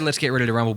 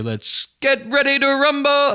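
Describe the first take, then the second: First: It is said in a plain, ordinary voice. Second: It imitates the announcer's famous drawn-out delivery.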